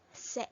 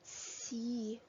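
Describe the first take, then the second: First: The vowel is a short 'eh' sound. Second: The vowel is a long 'ee' sound. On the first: The speaker calls it wrong. "It's not se" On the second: The speaker calls it right. "it's C. We call it C"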